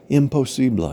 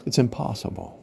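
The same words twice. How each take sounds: First: Imposible said the Spanish way, im-po-SI-ble; Spanish pronunciation. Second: Said in the usual way. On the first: Shown as a demonstration. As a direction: Imposible with Spanish vowels, stress on SI. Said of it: "in Spanish". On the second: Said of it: "Imposible in Spanish".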